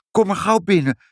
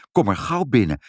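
First: Put-on high, eager child's invitation. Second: Grown-up, lightly voiced invitation; parents' voice. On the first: Child invites the old man inside, high and eager. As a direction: urge him in with a high childlike voice. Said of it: "zei Ibbeltje". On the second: Parents second the child's invitation, in grown-up voices. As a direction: agree kindly, in an adult register. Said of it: "zeiden vader en moeder". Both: A narrator's reading.

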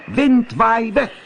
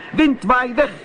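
First: High, loud, slow shout of the spell; little cat shouting the charm; loud call. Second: High, loud shout of the spell; little cat shouting the charm; loud call. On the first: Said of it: "heel hard roepen". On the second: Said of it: "en riep". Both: A narrator's reading. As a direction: yell it to break the spell.

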